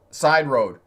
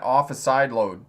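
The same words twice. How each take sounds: First: "Side road" with a clear r on "road", louder; corrected phrase. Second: "Off a side load" read out slowly, with "load" as written; puzzled read of "side load", "load" with an l; reading the typo. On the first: Instructor realizing the viewer meant "Side road", r clearly said. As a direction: fix it to "Side road", stressing "Side". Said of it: "I think it's a typo". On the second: Instructor reading a viewer's typo aloud, "side load" with an l. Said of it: "I don't understand that". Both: Shown as a demonstration.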